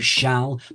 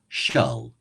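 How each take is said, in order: First: The L is light, as in modern English. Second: The L is dark, like in milk. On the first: "exactly the same as modern English" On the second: "the L has a quality more like the L of milk, a darker L"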